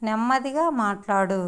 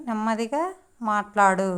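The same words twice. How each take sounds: First: Said in the usual way. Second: నెమ్మదిగా rising, short pause, then మాట్లాడు; word by word. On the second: Shown as a demonstration. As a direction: break the phrase after a lifted నెమ్మదిగా. Teacher models phrase word by word. (నెమ్మదిగా తర్వాత ఆగి మాట్లాడు అనడం)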